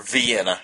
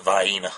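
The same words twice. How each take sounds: First: "Vienna" with an "ee" first and a short "en"; standard pronunciation. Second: "Vienna" the Southern way, "vy" then long "ee"; Southern pronunciation. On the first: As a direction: say "Vienna" as vee-EN-uh. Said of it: "however you say it". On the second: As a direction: say "Vienna" as vy-EE-nuh. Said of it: "In the South we call it". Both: Shown as a demonstration.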